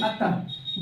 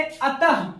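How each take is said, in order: First: अतः said in a breath, with the final h puffed out clearly; voiceless अतः, let the closing h breathe out; visarga sound demo. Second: Said in the usual way. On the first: Shown as a demonstration. (अतः को फुसफुसाते हुए, अंत के ह को साफ़ साँस के साथ बोलें) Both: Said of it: "जैसे ही हम अतः बोला करते हैं".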